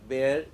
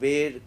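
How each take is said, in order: First: The vowel sounds like the word air. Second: The vowel does not sound like air. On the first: The speaker calls it right. "So air like that it sounds" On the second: The speaker calls it wrong. "not bear"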